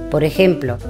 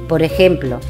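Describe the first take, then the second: The two takes are said the same way.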